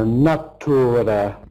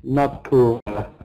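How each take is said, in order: First: The second syllable is fully pronounced, like 'tura'. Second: The same.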